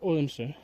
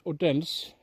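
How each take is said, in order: First: The D in the middle is silent. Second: The D in the middle is pronounced. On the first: The speaker calls it right. "It's a stum, silent D, so it's Odense" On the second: The speaker calls it wrong. "a lot of people says Odense because of the D"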